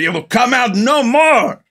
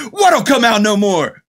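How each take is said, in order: First: High, slow, solemn mystic voice; solemn Egg Shen voice. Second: High, slow, baffled question; baffled Jack Burton. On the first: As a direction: intone it like an old sorcerer. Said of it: "He goes". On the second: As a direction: ask it completely bewildered. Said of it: "he goes". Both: Retold or imitated.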